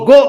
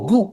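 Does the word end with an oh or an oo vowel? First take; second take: oh; oo. First: The word ends with an oh vowel. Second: The word ends with an oo vowel. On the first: The speaker calls it right. "G ಓ ಗೋ ಆಗ್ಬಿಡುತ್ತೆ" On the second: The speaker calls it wrong. "ಈ logic apply ಮಾಡಿದ್ರೆ G ಓ ಗು ಆಗ್ಬೇಕು, ಆಗಲ್ಲ"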